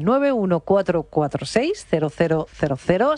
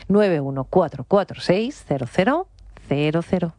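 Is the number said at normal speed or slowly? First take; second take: normal speed; slowly. First: The number is said at normal speed. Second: The number is said more slowly.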